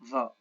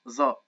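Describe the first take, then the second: First: The tongue sticks out between the teeth. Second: The tongue stays behind the teeth. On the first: "in the Gulf region, with putting their tongue outside their teeth" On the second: "in the Egyptian dialect and in the modern standard Arabic, it's just ظاء"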